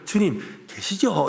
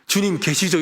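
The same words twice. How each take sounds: First: It is said warmly, with heartfelt feeling. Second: It is said flatly, without real feeling.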